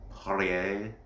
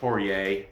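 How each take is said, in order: First: The name is said with a French pronunciation. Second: The name is said with an English pronunciation. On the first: "if you want to say it with the French inflection" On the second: "I think it's Poirier"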